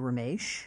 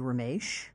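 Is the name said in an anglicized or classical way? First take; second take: classical; classical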